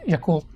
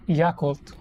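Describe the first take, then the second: First: Yakult said quickly as ya-KULT; short, quick ya in Yakult; quick Filipino pronunciation. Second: Yakult with a stressed open YAH; American pronunciation. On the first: Shown as a demonstration. Showing how Philippines says it, quick even pronunciation. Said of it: "it's pronounced quickly". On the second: Retold or imitated. Quoting how he pronounced it, American pronunciation. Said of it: "He pronounced it as".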